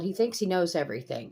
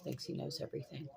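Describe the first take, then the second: First: Said in the usual way. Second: Thinks he knows everything muttered much softer; muttered repeat. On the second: Real, not acted. Grandmother grumbling about her grandson, muttered aside. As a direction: mutter it under your breath.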